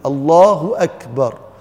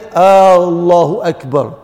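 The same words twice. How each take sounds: First: The opening vowel of Allah is short. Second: The opening vowel of Allah is drawn out. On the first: It states that Allah is the greatest. The speaker calls it right. "people have to be very clear when they pronounce the takbir" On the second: It asks whether Allah is the greatest. The speaker calls it wrong. "They put Hamzatul Istifham on Allah, which is making it a question"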